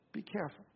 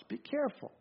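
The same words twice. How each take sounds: First: "Be careful" dropped almost to a murmur, with "be" falling; hushed warning. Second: "careful" lifted high and hushed, a gentle caution; earnest warning. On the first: Preacher repeats the caution to his listeners, near-murmured. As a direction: repeat it very softly, letting it sink in. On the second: Preacher cautions the congregation about pride, hushed high warning. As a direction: lean in and warn them softly, "Be careful". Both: Real, not acted.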